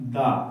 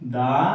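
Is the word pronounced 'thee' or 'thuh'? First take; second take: thuh; thuh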